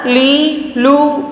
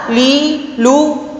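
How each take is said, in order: Both takes have the same delivery.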